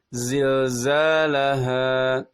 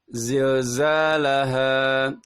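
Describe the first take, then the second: First: The a vowel sounds thick, mouth half closed. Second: The same.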